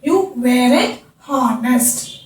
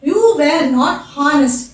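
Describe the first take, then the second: First: Were and not merge into one contracted word. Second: Were and not are said as separate words.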